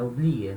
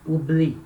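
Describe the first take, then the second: First: "Oublier" with a lower-pitched extra É after the I; wrongly added E. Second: "Oublie" cut off cleanly on I; no E sound. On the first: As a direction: tack an É onto "Oublier" as the mistake. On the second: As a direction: say "Oublie" as ou-BLI, nothing after. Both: Shown as a demonstration. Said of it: "não falar esse oublie e colocar".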